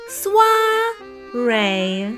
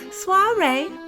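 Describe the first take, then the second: First: The word is said slowly. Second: The word is said very fast.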